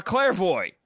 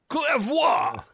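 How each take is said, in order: First: Put-on Clairvoy said as "CLAIR-voy", rhyming with boy; anglicized Clairvoy, the final syllable like "voy"; Clairvoy with a hard American "voy" ending. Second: Clairvoy said as "cler-VWA", ending in "vwa"; French Clairvoy with the final syllable "vwa"; Clairvoy pronounced correctly in French, "cler-VWA". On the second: Retold or imitated. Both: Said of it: "If you pronounce his name correctly".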